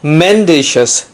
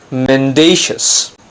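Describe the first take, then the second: First: The stress is not on the second syllable. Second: The stress is on the second syllable. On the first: The speaker calls it wrong. "not mendacious" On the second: The speaker calls it right. "we have the stress on the second syllable"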